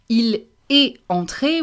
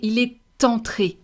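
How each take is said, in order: First: The T of est is silent, with no liaison. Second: The T of est links onto entré. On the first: The speaker calls it wrong. "instead of saying il est entré" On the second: The speaker calls it right. "we're going to say il est entré"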